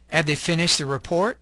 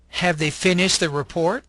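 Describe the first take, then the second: First: The words are weakened and run together. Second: Each word is said fully and separately. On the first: "The second column has a reduced form" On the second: "you'll have the long form"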